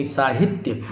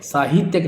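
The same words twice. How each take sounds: First: साहित्यक as "saa-hit-yak"; short hi. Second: साहित्यक as "saa-hee-tyak"; long hi. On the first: Teacher correcting the word, साहित्यक with short "i". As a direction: keep the middle vowel of साहित्यक short. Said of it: "साहित्यक ये शुद्ध होगा". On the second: Teacher showing the mistake, साहित्यक with long "ee". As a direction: lengthen the middle vowel of साहित्यक. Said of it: "साहित्यक नहीं". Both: Shown as a demonstration.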